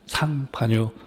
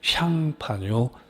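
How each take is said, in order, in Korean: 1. 이 이름은 s 소리로 시작해요. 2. 이 이름은 sh 소리로 시작해요. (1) "상파뉴라고 나와 있는 책도 꽤 있어요" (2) "원래 불어 발음이 샹인데"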